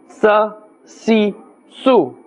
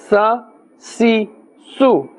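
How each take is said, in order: Both takes have the same delivery.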